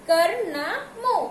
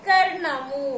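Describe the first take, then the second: First: కర్ణము broken into slow, separate parts; syllable by syllable. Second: Said in the usual way. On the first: Shown as a demonstration. Teacher showing pupils how to read the word, కర్ణము sounded out slowly. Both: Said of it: "ఎలా చదవాలి".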